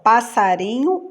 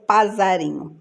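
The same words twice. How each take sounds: First: Said in the usual way. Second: "passarinho" with a buzzing Z for SS; Z sound. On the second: Shown as a demonstration. Teacher offering the wrong option, "passarinho" voiced with Z. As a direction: say "passarinho" as pa-za-RI-nho. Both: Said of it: "então dois S's".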